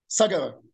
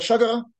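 First: The word begins with an s sound. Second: The word begins with a sh sound.

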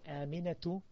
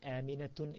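First: The word ends in a vowel, no final n. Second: The word ends with an added final n sound. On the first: The speaker calls it right. "aminatu does not have tanween" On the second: The speaker calls it wrong. "aminatun is incorrect"

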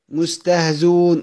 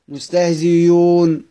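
First: The hamza is left out entirely. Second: The hamza is replaced by a y sound. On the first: "حذف الهمزة" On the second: "ابدلها ياء خالصا"

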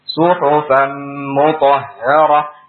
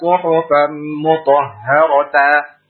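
First: The last word ends in a silent h. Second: The last word ends in a voweled ta. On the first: The speaker calls it right. "Berubah menjadi ha sukun dan dibaca tanpa mad" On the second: The speaker calls it wrong. "Jangan dibaca suhufan mutahharata. Salah"

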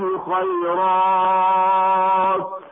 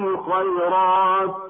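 First: The long vowel is held longest, six beats. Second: The long vowel is held briefly, two beats. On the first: "الإشباع أيضا بمقدار ست حركات" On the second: "بالقصر يكون هكذا"

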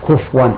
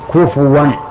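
First: The f sound has no vowel after it. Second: The f sound is followed by a u vowel. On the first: The speaker calls it wrong. "سكن الفاء، هذا خطأ" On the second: The speaker calls it right. "هذا بالواو"

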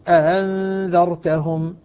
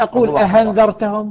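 First: The second hamza is eased between hamza and alif. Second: The second hamza sounds like an h. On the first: The speaker calls it right. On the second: The speaker calls it wrong.

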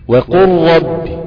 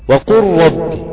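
The two takes are said the same way.

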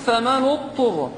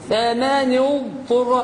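First: The ض merges into a doubled ط. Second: The ض is held long and kept distinct. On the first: The speaker calls it wrong. "كأن الطاء مشددة" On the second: The speaker calls it right. "بيان الضاد مع الطاء ما نضغمهاش"

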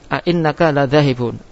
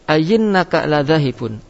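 First: Two glottal stops separate the opening vowels. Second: A y sound replaces the second glottal stop. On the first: "yaitu tetap a'innaka ladhahibun" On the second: "C berubah menjadi ya"

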